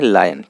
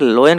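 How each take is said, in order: First: The first vowel sounds like 'ah'. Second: The first vowel sounds like 'oh'. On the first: The speaker calls it right. "सही पूरी से सही इसका उच्चारण है लायन" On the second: The speaker calls it wrong. "इसको मैं कई बार लोयन कह दे रहा हूँ"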